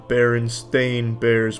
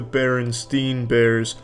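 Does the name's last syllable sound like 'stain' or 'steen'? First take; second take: stain; steen. First: The last syllable sounds like 'stain'. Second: The last syllable sounds like 'steen'. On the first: This is the name's actual spelling. The speaker calls it right. "apparently it's always been the Berenstain Bears" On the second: This is how many people remember the name. The speaker calls it wrong. "remember these beloved children's books as the Berenstein Bears"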